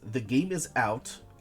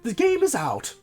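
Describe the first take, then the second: First: It is read in the speaker's ordinary voice. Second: It is said in an imitated character's voice.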